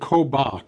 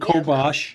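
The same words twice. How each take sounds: First: The name ends with a hard K sound. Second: The name ends without a hard K sound. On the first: "with a hard K" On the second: "I said Kobach"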